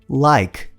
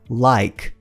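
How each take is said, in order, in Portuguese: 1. A palavra termina limpa, no som do k. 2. A palavra termina limpa, no som do k.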